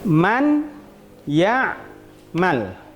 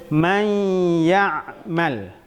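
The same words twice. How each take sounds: First: The n sound is pronounced clearly before the y. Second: The n sound merges into the y with nasalization. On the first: The speaker calls it wrong. "Ini bacaan yang tidak sesuai" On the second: The speaker calls it right. "bacaan yang sesuai, yang benar"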